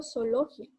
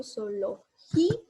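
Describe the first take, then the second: First: Zoología with final "gia" as one syllable, no stressed í; ending run together. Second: Zoología with a long stressed "gí", then separate "a"; split hiatus. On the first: Teacher showing the wrong way, zoología ending in a joined "gia". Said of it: "Yo no digo zoología para dejarlo junto". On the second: Teacher showing the right way, zoología with stressed "gí" split from "a". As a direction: break zoología before its last A, leaning on "gí". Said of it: "yo digo zoología". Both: Shown as a demonstration.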